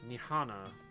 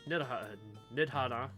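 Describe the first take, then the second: First: The d sound is silent in the name. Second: The d sound is pronounced in the name.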